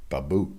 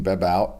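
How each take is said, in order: First: "Babout" said the French way, ba-BOO with no final t, lower and softer; lightly Frenchify "Babout" as a quick aside; French pronunciation. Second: Said in the usual way. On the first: Shown as a demonstration. Host showing how a signee's name would sound in French. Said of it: "If I was to say it in French". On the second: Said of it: "I think that's how you say that".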